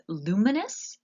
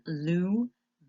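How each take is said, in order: First: Said in the usual way. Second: Luminous said slowly and clearly, LOO-mi-nous, stress on the first syllable; careful pronunciation. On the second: Shown as a demonstration. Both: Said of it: "and the pronunciation".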